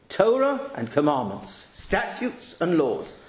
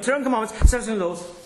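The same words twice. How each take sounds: First: It is read at a normal, steady speed. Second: It is read very fast and rushed. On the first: The reader understands and thinks about the words. The speaker calls it right. "That's the normal way to read" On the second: The words are barely said and not really read. The speaker calls it wrong. "I could do it quicker"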